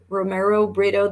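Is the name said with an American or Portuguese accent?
American. The name is said with an American accent.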